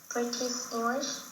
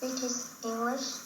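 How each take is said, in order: The two takes are said the same way.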